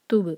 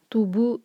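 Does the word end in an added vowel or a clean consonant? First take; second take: clean consonant; added vowel. First: The word ends cleanly on the consonant. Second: The word ends with an added rounded vowel. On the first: The speaker calls it right. "تو یہ ہوگا توب" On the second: The speaker calls it wrong. "توبو نہیں ہوگا"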